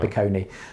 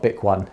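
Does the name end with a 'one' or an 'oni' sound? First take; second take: oni; one. First: The name ends with an 'oni' sound. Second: The name ends with a 'one' sound. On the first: The speaker calls it right. "that's how you pronounce it" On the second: The speaker calls it wrong. "but not Bic One"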